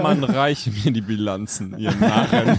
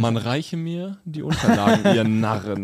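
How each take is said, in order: First: Pompous king. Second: Lightly voiced haughty royal command; a hint of a crowned tyrant; pompous king. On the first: Pretend. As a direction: play the crowned CEO ordering fools. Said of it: "Eine Krone, kommt er immer in Walmart rein". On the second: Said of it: "Pelzmantel und so".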